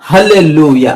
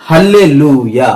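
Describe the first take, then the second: The two takes are said the same way.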